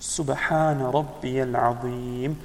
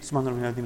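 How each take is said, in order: First: Each word is pronounced fully and clearly. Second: The words are rushed and slurred together. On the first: The phrase is recited properly. The speaker calls it right. "That's not tasbih" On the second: The phrase is not recited properly. The speaker calls it wrong. "A lot of people, when they go into ruku, then they read"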